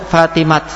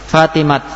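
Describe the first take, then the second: No difference in how they are said.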